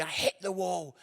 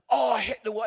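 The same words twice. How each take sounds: First: Said in the usual way. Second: Oh, I hit the wall, louder and higher; telling the crowd about mile nineteen, a louder pained lament; louder groaning lament.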